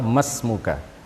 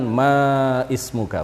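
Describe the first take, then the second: First: The alif is dropped, with no vowel before smuka. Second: An i vowel is voiced before smuka. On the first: The speaker calls it right. "yang benar adalah masmuka" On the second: The speaker calls it wrong. "bukan maismuka"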